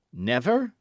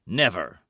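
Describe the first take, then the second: First: "Never" lifted, rising at the end; challenging question. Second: "Never" low and falling, final; firm refusal. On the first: Felton challenges the refusal, "Never" rising as a question. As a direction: throw "Never" back as a question. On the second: Buckingham refuses to sign, "Never" firm and falling. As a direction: say "Never" as a closed statement. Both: A narrator's reading.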